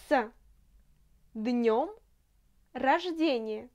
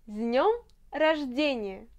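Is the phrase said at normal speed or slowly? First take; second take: slowly; normal. First: The phrase is said more slowly. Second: The phrase is said at normal speed.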